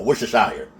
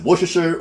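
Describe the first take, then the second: First: "Worcestershire" ending in a long "shire"; alternative pronunciation. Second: "Worcestershire" ending in a short "sher"; unsure pronunciation. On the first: Cook offers viewers another guess, "Worcestershire" ending in shire. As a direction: say "Worcestershire" as wooster-shire, rhyming with fire. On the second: Cook asks viewers how to say it, "Worcestershire" ending in sher. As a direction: say "Worcestershire" as wooster-sher, testing it. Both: Shown as a demonstration. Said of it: "how do you even say it".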